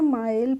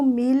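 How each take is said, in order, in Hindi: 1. स्वर 'ai' ध्वनि है, जैसे eye में। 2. स्वर लंबी 'ee' ध्वनि है। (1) "माइल पढ़ते हैं" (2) "इसको मील नहीं पढ़ते हैं"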